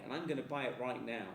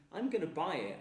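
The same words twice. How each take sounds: First: And I'm gonna buy it right now, rattled off fast and lower; impatient shopper buying on impulse, quick and eager; hurried impulse. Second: I'm gonna buy it, said firmly with weight on I'm; declaring she will buy it, steady and emphatic; firm declaration. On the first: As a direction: rush it like you can't wait. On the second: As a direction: state it like a decision. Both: Acted.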